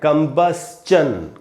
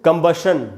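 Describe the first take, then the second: First: The ending is schun, with an s-ch sound. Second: The ending is shun, with no ch sound. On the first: The speaker calls it right. "आधा स और च और न होगा" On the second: The speaker calls it wrong. "कंबशन नहीं पढ़ना है"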